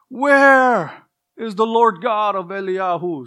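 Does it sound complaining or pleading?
pleading. It sounds like an anguished cry of prayer.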